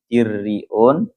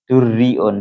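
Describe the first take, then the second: First: The first vowel is an i sound. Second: The first vowel is a u sound. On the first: "kalau kasrohnya dal berarti dirriun" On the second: "Kalau dengan dhammahnya dal berarti durriun"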